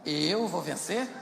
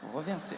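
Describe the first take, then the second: First: It is a doubtful question with rising end. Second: It is a confident statement with falling end.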